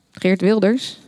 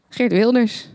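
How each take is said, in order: First: "Geert Wilders" with a questioning rise; questioning repeat. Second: Said in the usual way. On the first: A narrator's reading. Neighbour checks what was in the parcel, questioning rise on "Geert Wilders". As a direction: ask "Geert Wilders" back, lifting the end.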